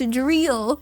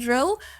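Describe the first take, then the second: First: The vowel is a long 'ee' sound. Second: The vowel is a short 'ih' sound. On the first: "was pronounced drill" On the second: "I was adamant for quite a while that drill"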